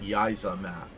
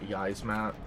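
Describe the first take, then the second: First: An extra vowel is heard between z and m. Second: No vowel is heard between z and m.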